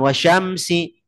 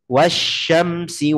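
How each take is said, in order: First: It is said quickly, the doubled sound shortened. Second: The doubled sh sound is clearly held and lengthened. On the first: The speaker calls it wrong. "kita bacanya misalnya kecepatan" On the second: The speaker calls it right. "Saya usahakan bacanya ... Jelaskan tasydidnya"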